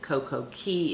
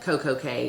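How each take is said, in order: First: The last word sounds like 'key'. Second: The last word sounds like 'kay'. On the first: "if you want to pronounce it correctly" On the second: "is just more fun because it rhymes"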